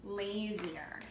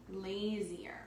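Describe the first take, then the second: First: Said in the usual way. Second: "lazier" breathed out in a whisper, no voice; a hushed repeat of "lazier". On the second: Shown as a demonstration. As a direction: whisper the word lazier back to the class. Teacher repeats the word in a whisper.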